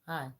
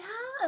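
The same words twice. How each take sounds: First: The greeting sounds flat and reluctant. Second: The greeting sounds bright and eager. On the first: She is not interested in you. "It's gonna be like" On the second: She is interested in you. "her tone is not gonna be"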